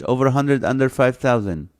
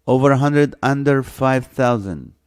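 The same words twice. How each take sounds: First: Said in the usual way. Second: "over" and "under" hit louder, each limit spelled out; stressed repeat. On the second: Shown as a demonstration. Host repeating the guessing range to the viewers, emphatic. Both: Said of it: "Not under a thousand".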